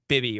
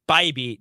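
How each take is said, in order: First: The first vowel is a short 'ih' sound. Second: The first vowel is a long 'eye' sound. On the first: The speaker calls it wrong. "not uh, like Bibby or whatever" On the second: The speaker calls it right. "it's Bybee"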